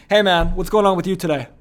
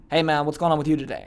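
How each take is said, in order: First: Loud greeting with no uptone; drill sergeant. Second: Casual question with "today" left unlifted; uncaring, no uptone. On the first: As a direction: fire off the question loudly, without a lift at the end. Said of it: "this guy's like a drill sergeant". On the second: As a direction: ask as if the answer doesn't matter. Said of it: "doesn't really care about the answer". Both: Retold or imitated.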